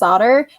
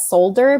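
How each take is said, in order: First: The L sound is left out of the word. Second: The L sound is pronounced in the word. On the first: The speaker calls it right. "but it's solder" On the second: The speaker calls it wrong. "said solder as solder because it's spelled with an L"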